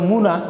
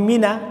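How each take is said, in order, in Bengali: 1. প্রথম স্বরধ্বনিটি u উচ্চারণের। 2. প্রথম স্বরধ্বনিটি i উচ্চারণের। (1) "কেউ কেউ বলে মুনা" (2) "আমরা বলি মিনা"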